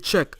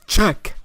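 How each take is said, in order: First: The word is said flatly, without enthusiasm. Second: The word is said with lively enthusiasm. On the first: The game is good enough to check out. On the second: The listener should really check it out.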